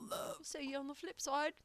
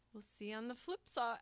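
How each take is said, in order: First: A shaky stab at a Liverpool accent, pitched up; playful failed Liverpool accent; attempted Liverpool accent. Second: Said in the usual way. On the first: Shown as a demonstration. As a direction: try a Scouse Liverpool accent and miss. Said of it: "I can't do a Liverpool accent". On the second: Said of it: "How do you say it?".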